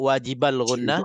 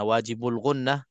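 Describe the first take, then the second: First: The vowel after 'wajib' is an 'a' sound. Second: The vowel after 'wajib' is a 'u' sound. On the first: "Ada sebut wajibal gunnah" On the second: "wajibul gunnah dengan baris depan"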